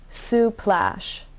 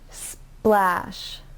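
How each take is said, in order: First: A short vowel is inserted between s and p. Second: The s, p and l run together without vowels. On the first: The speaker calls it wrong. "If you add a vowel in between the cluster, it will sound like suplash. And that's not correct" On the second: The speaker calls it right. "make sure that you don't add a vowel in between"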